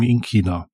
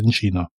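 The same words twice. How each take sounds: First: China starts with a hard K, southern German style. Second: China starts with a soft ch sound.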